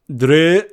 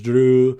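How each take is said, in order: First: The name is said in a put-on accent. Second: The name is said without a put-on accent. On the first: "I'm gonna say it again with the accent" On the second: "I didn't even try and do the accent. I just said it weird"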